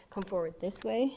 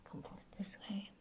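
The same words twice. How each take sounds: First: Said in the usual way. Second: Fast, breathy whisper. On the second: Shown as a demonstration. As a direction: whisper the cue quickly. Yoga cue said twice.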